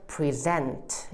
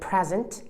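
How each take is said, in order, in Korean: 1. 강세는 두 번째 음절에 있어요. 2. 강세는 첫 번째 음절에 있어요. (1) "뒤로 가셔야 돼요. 그래서 present 이렇게 갑니다" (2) "앞에다가 강사를 주시면 이건 선물이라고 해서 명사거든요"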